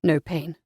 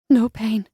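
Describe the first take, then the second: First: Low, soft male reply; gently asked by the hero. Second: Lighter female reply, falling tune. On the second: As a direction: her answer, brighter and assured. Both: A narrator's reading.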